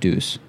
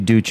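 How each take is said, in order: First: It is pronounced the French way. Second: It is pronounced the Italian way. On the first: "if it's French, it would be Deuce" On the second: "If it's Italian, I think it would be Duce"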